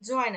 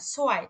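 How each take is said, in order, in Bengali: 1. শব্দটি 'j' ধ্বনি দিয়ে শুরু হয়। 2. শব্দটি 'ts' ধ্বনি দিয়ে শুরু হয়।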